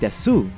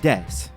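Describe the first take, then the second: First: The final u vowel is clearly sounded. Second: The final u vowel is dropped. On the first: This is how speakers around Kyoto say it. "those in and around Kyoto can sometimes be heard saying desu" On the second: This is how speakers in Tokyo say it. "in Tokyo, it's more common to have the U taper off"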